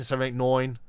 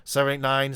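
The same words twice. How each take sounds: First: "seven eight nine" with "nine" said like "noin", the New York way. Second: Said in the usual way. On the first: Shown as a demonstration. Host shows chat a classic New York "nine". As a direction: swap the "nine" vowel for an "oy": "noin". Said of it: "New Yorker pronunciation there". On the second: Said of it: "instead of saying".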